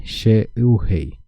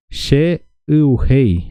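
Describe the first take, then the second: First: Said in the usual way. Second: "she uhei" stretched very slowly, each syllable apart; slow syllable-by-syllable model. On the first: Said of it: "repeating at near-normal pace". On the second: Shown as a demonstration. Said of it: "drilling the phrase twice".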